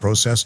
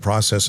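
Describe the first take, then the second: First: The word is said with a Canadian pronunciation. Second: The word is said with an American pronunciation. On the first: This is how the speaker used to say it. "and not process" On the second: The speaker has adapted to American speech. "you see how I've become American now"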